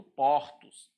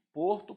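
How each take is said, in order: First: "portos" slowly, first vowel opened up. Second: Closed o in "Porto"; "Porto" slowly, first vowel closed. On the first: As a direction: open o in "portos". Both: Shown as a demonstration. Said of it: "essa mudança de timbre".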